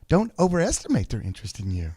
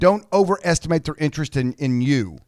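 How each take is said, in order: First: It is said in a gentle, nicer tone. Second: It is said in a harsh, mean tone.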